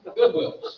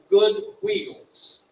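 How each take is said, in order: First: The vowel in wheels is short. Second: The vowel in wheels is long. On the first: This is how locals say the name. "They don't say it that way. They say Goodwills" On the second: This is the standard name of the place. "called Good Wheels"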